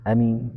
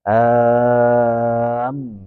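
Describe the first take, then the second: First: The first vowel is short. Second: The m is doubled after a long vowel. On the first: "Dibaca pendek ya" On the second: "Mimnya ada tasdidnya itu"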